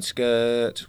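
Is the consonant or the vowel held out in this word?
vowel. The vowel is held out long. "The vowel's got all the note"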